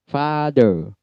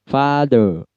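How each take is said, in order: No difference in how they are said.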